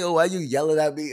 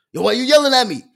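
First: Said in the usual way. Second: Loud, high comeback to a mumbler; joking mock yell. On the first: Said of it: "So when she say". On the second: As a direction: blast back in pretend complaint. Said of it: "That's the joke that I say".

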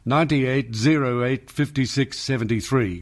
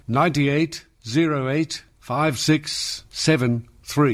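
First: Said in the usual way. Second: Slowed down, each digit separated; slow, spelled-out digits. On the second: Shown as a demonstration. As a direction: read the number out slowly, digit by digit. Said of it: "Got it?".

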